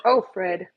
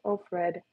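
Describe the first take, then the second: First: Said in the usual way. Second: Softer, tender croon to the dog; sung, coo it softly to the dog; sung, soothing the lonely dog, quietly. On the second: Real, not acted. Talking to the dog Fred.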